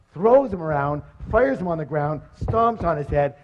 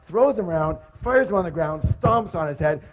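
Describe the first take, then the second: No difference in how they are said.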